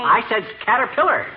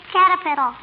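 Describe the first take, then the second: First: "caterpillar" said clearly, /kætərpɪlər/, stressed; correct caterpillar. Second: "Caterpillar" said as "cattle piddle", /kætəpɪtəl/; child insists, saying "Caterpillar" like "cattle piddle"; mispronounced caterpillar. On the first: Shown as a demonstration. Man correcting the little girl's mangled word. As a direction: carefully spell out "caterpillar" sound by sound. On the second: Acted. Little girl correcting mister, still mangling the word. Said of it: "You're saying cattle piddle".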